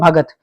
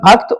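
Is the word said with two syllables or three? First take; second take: three; two. First: It has three syllables with a 'g' sound. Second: It has two syllables with a 'kt' cluster. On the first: This is the regional Punjabi or Haryanvi form. "Punjab में भगत बोलते हैं" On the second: This is the standard Hindi form.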